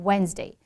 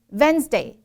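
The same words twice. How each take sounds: First: "Wednesday" opening on a rounded w; correct W. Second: "Wednesday" said as "Venzday"; buzzed v in place of w in "Wednesday"; W turned V. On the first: Teacher giving the correct example, clear w. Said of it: "是这个V and W". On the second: Teacher imitating the mistake, v for w. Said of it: "V and W全部反掉". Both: Shown as a demonstration.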